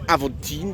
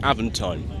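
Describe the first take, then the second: First: The name is said with a French pronunciation. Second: The name is said with an English pronunciation. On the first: This is how the name would be said in its own language. "that was how a French person should pronounce it" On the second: This is how the name is actually said here. "That's just the way that it is"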